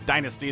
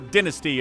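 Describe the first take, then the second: First: It is said in an American accent. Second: It is said in a British accent.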